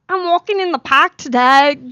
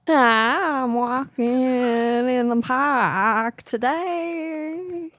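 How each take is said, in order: First: It is said in a Harlem teenage accent. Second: It is said in a Southern Alabama accent. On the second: "with an American accent from Alabama"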